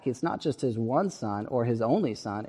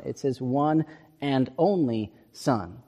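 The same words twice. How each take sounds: First: Said in the usual way. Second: Slow, weighted stress on "one and only"; slow down and press "one and only" home; emphatic one and only. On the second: Shown as a demonstration. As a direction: lean hard on "one and only", word by word. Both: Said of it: "but it's emphatic".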